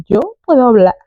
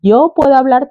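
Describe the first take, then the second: First: Put-on "Yo puedo hablar" in a foreign gringo accent; mock gringo Spanish accent. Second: Put-on "Yo puedo hablar" lightly in gringo accent; a hint of an American accent; faint gringo accent. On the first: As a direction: speak Spanish like an American learner. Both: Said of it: "tipo como gringo".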